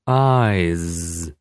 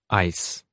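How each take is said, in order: First: The word ends with a buzzing z sound. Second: The word ends with a hissing s sound. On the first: The speaker calls it right. "this time with the consonants at the end pronounced correctly" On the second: The speaker calls it wrong. "I've read them the same way, all with the sound s"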